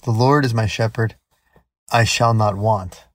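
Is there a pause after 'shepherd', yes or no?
yes. There is a clear pause after shepherd.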